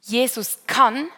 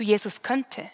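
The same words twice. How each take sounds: First: "Jesus kann" said slowly and firmly, rising on "kann"; a slow, certain claim; confident. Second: A hesitant, deflated maybe; doubtful. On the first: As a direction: state it as a sure promise. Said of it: "wir wechseln von". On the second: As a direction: let the faith drain out of it. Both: Shown as a demonstration.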